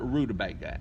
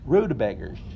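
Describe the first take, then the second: First: The word ends in a plain 'uh' vowel. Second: The word ends in an 'ers' sound. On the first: This is how most people say it. "A lot of people call it rutabaga" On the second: This is how the speaker's family said it. "Mama and Daddy called them rutabaggers"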